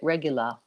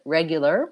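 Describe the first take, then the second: First: The final R becomes a schwa-like vowel. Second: The final R sound is clearly pronounced.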